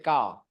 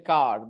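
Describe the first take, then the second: First: The final R sound is dropped entirely. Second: The final R sound is clearly pronounced. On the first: "in British English, people do not say R" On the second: "they don't say car"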